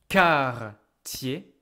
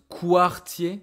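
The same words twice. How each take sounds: First: The word begins with a plain 'k' sound. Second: The word begins with a 'kw' sound. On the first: The speaker calls it right. "This is a quartier" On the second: The speaker calls it wrong. "You might want to pronounce quartier, this Q U. You might want to say like quoi"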